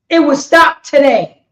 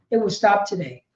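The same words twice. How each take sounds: First: "It will stop today" said louder; louder preacher's vow; loud declaration. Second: "It will stop today" said lower and softer; lower, softer echo of the vow; quiet repeat. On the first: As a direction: proclaim it to the crowd. First take, declared loud. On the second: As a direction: let it sink in softly. Repeated, dropped low and soft. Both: Real, not acted.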